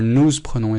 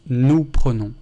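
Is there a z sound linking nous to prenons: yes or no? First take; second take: yes; no. First: A z sound links nous to prenons. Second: No z sound links nous to prenons. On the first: The speaker calls it wrong. "we don't say nous prenons" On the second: The speaker calls it right. "It's just nous prenons"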